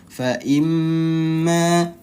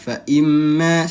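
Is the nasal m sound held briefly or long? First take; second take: long; brief. First: The doubled m is held for two beats. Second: The doubled m is held for one short beat. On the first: The speaker calls it right. "ditahan dulu bibirnya bertemu dulu" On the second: The speaker calls it wrong. "satu ketukan saja dia"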